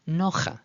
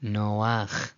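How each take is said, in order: First: Nocha with the vowel after the guttural; wrong literal reading. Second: Noach as NO-akh, ending on the guttural; correct stolen patach. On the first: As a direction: read nocha as NO-kha, ending on an open ah. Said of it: "may appear to look like that says". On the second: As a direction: say noach with ah before the final kh. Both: Shown as a demonstration.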